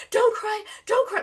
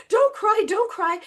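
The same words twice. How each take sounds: First: High, anxious mock mom; hammed-up flustered mom; panicky mom. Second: High, loud frantic mock mom; imitating a frazzled parent; panicky mom. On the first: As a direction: imitate a frantic mother soothing. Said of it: "like, freaking out". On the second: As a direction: do the flustered mother again. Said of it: "she's like".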